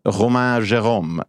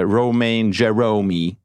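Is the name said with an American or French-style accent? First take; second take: French-style; American. First: It is said in a French-style accent. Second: It is said in an American accent.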